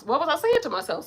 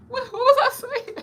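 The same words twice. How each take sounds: First: Said in the usual way. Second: Much higher, mock-puzzled voice at herself; playful self-talk. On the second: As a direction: talk to yourself like a ditzy other self. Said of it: "Self, what did we just say?".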